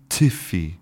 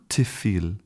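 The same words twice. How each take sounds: No difference in how they are said.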